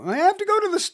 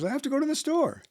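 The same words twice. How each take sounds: First: The voice is pitched highest and most energetic. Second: The voice is pitched somewhat higher, more energetic. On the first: "ultimately get to" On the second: "up a little bit, a little bit more energetic"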